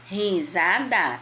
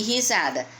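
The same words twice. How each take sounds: First: "Risada" slowly split into ri-sa-da; syllable by syllable. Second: Said in the usual way. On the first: Shown as a demonstration. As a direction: sound out each syllable of "Risada". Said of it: "Tem a mesma quantidade". ("Risada" devagar, separando ri-sa-da) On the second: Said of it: "Quantas sílabas tem".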